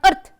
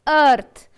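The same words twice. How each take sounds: First: The vowel is said short and clipped. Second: The vowel is said long and drawn out. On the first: The speaker calls it wrong. "not earth" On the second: The speaker calls it right. "it is earth"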